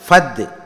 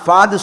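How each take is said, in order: First: The first vowel is cut short. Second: The first vowel is drawn out long. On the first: The speaker calls it right. "ஃபத்து சொல்லுங்க" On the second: The speaker calls it wrong. "ஃபாது சொல்லக்கூடாது"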